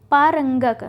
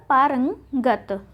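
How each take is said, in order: First: पारंगक louder, ending in k; पारंगक with final k; wrong form shown. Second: पारंगत slowly, ending in t; slow, split पारंगत with final t; correct form shown. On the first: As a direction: say पारंगक as pā-rang-gak. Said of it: "ना होके क्या होगा". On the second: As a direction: say पारंगत as pā-rang... gat. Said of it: "ता का प्रयोग होगा". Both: Shown as a demonstration.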